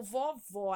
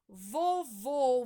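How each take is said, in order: First: Vovó with a wide open o on the last syllable; open final ó. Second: Vovô with a loud, closed o on the last syllable; closed final ô. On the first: Teacher giving the acute option, vovó with open final ó. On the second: Teacher giving the circumflex option, Vovô with closed final ô. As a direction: end Vovô on a rounded closed ô. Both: Shown as a demonstration. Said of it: "acento circunflexo ou agudo".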